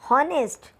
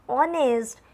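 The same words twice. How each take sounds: First: The word begins with an h sound. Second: The word begins without an h sound. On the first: The speaker calls it wrong. "We don't pronounce it honest" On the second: The speaker calls it right. "We should pronounce it honest"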